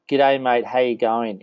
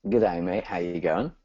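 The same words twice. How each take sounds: First: Light demo of an Aussie greeting; Aussie accent. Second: Having a go at Australian; attempted Aussie accent. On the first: Host challenges guest to copy him, Aussie accent. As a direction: model a casual Australian accent. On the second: Guest tries host's Aussie greeting on request, imitated Aussie accent. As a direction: imitate an Aussie greeting, not quite convincingly. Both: Shown as a demonstration. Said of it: "in your best Aussie accent".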